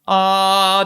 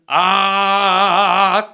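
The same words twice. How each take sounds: First: The vowel sounds clean and smooth. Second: The vowel sounds rough and distorted.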